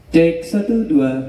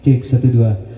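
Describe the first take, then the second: First: The voice sounds thin without a boosted low end. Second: The voice sounds bassy with a boosted low end. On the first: "Ini suaranya tidak ngebas" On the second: "suara vokal yang agak ngebas seperti ini"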